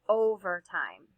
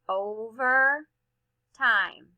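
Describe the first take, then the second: First: The word is said quickly without a pause. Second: The two parts are separated by a pause. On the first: "Let's read these the fast way" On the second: "This is one where we would chunk it"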